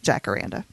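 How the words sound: It is said with an English pronunciation. "but in English, it's"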